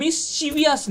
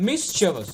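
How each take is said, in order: First: মিসচিভিয়াস as "mis-CHI-vi-as"; higher, slow, four-syllable মিসচিভিয়াস; wrong extra "i" in মিসচিভিয়াস; common mispronunciation. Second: মিসচিভিয়াস as "MIS-che-vas"; three syllables, falling, in মিসচিভিয়াস; no "i" before the last syllable of মিসচিভিয়াস; correct pronunciation. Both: Shown as a demonstration. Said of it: "মিসচিভিয়াস না".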